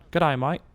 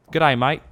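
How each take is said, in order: First: Rising Aussie greeting, lightly done; a half-hearted try at the Australian twang; fake Australian. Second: Loud, bright Aussie greeting; mock Australian. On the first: Gamer admitting his Australian accent sounds fake. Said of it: "a fake the second I just open up". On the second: Gamer showing his only Australian phrase. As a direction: sell it like a cheerful Aussie bloke, lightly. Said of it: "I can only say".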